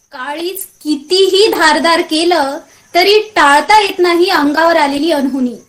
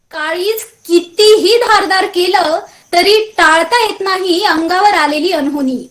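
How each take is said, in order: No difference in how they are said.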